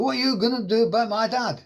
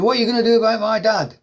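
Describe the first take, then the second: First: Higher put-on Welsh accent at normal loudness; broad Welsh accent. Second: Louder, higher put-on Welsh accent demanding an answer; angry Welsh son on the phone, loud and high; broad Welsh accent. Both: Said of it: "on a really broad Welsh accent".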